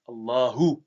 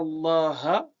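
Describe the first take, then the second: First: The word ends with a short u vowel. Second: The word ends with a short a vowel. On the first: "Par une dhamma" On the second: "Par le son A"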